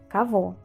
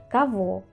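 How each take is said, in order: The two takes are said the same way.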